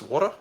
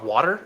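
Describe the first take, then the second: First: The word is said in an Australian accent. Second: The word is said without an Australian accent.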